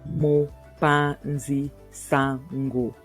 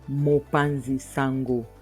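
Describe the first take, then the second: First: It is said slowly, broken into parts. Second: It is said at an ordinary pace. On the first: "I'll just break it down" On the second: "I'll just say it normally"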